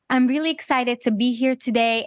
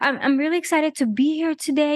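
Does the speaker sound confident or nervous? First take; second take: confident; nervous. First: It sounds confident and assertive. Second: It sounds nervous and hesitant.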